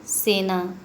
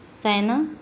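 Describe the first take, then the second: First: सेना with a close e, like senaa; corrected vowel. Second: सेना said open, like sainaa; vowel error. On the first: Teacher giving the correction, close-e सेना. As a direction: say सेना with a pure long e. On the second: Teacher showing the error, open-vowel सेना. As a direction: open the first vowel of सेना to ai, rising end. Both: Shown as a demonstration. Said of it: "स्वर संबंधी अशुद्धियों के बारे में".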